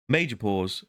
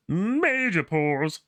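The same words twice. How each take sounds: First: Said in the usual way. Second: High, very slow stretched major pause; drawn-out major pause. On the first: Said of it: "It comes from the back of my throat". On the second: Shown as a demonstration. Vlogger mocking his own long pause, very slow. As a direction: drag out the words major pause.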